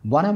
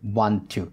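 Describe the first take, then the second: First: The two words are blended into one reduced form. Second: The two words are said fully and separately. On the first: The setting is informal, among friends. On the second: The setting can be formal.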